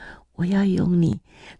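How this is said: The voice is gentle and tender. "那个声音决然不一样， 很温柔， 很柔和的"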